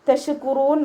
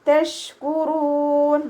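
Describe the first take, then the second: First: The sh sound is released loosely, not held. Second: The sh sound is held firmly at its place. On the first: The speaker calls it wrong. "തഷ്കുറൂൻ ഓതരുത്" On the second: The speaker calls it right. "മഖ്റജിലേക്ക് ചേർത്തി കൊടുക്കുക"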